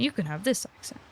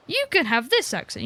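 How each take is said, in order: First: Dole out the next one, dropped down and softer; handing out accents. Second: Lightly playful, higher-pitched quote; handing out accents. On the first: Second character handed an accent. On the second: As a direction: dole it out in a slightly raised voice. Mimes handing out accents to characters. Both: Acted.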